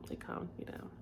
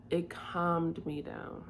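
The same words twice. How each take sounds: First: Soft, voiceless whisper; barely audible whispered repeat. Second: Said in the usual way. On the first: Real, not acted. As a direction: whisper it as a quiet echo to yourself.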